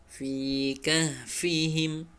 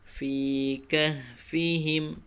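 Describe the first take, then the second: Both takes have the same delivery.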